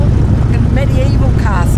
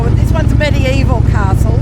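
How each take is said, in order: First: "medieval" drawn out slowly and stressed. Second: "ones" stressed with a rise. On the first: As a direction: lean on "medieval", slow. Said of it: "Not just any castle". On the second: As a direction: lift "this one's" as the point. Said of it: "if they're not medieval". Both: Real, not acted.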